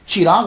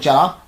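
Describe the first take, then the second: First: The first syllable has an 'i' vowel. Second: The first syllable has an 'a' vowel. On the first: "चा के नीचे जेर" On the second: "चा के ऊपर जबर"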